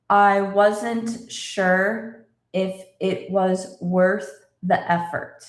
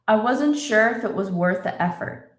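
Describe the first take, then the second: First: The sentence is spoken slowly and carefully. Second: The sentence is spoken at normal conversational speed. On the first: "let's read this kind of slowly" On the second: "Now let's say it in normal speed"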